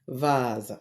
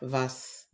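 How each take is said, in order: First: The s is said as a buzzing z sound. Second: The s is said as a hissing s sound. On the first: The speaker calls it right. "S letter but sounds Z" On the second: The speaker calls it wrong. "and not"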